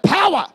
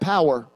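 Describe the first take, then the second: First: It is said loudly with great energy. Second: It is said calmly and flatly.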